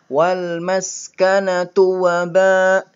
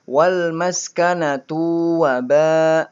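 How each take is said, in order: First: The 'tu' is short and quick. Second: The 'tu' is drawn out long. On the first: The speaker calls it right. "Di sini tunya pendek, hati-hati bacanya harus lebih cepat" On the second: The speaker calls it wrong. "jangan sampai"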